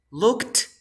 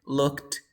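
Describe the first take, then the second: First: "looked" rising high into a hard T; final T in looked. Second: "looked" level, with a weak D-like end; don't punch the end of "looked"; soft D ending. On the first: Teacher contrasting both endings, "looked" with strong T. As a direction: release the T of "looked" loudly. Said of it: "voy a pronunciar con la T y con la D". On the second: Teacher contrasting both endings, "looked" with soft D. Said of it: "But the second one is". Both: Shown as a demonstration.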